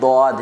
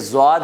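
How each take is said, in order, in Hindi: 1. अक्षर के नाम की शुरुआत d ध्वनि से होती है। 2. अक्षर के नाम की शुरुआत z ध्वनि से होती है। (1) "दौद है" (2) "ये ज़्वाद नहीं है"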